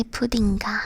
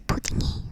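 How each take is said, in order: First: Puddinga ending in a "ga" syllable; puddinga, the marker said as "ga"; wrong ending demo. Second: Puddingy ending in an "ee" vowel; puddingy, the marker said as "ee"; correct ending demo. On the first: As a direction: tack "ga" onto pudding, as puddinga. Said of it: "you wouldn't say". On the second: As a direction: run pudding straight into "ee", as puddingy. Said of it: "You would say". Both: Shown as a demonstration.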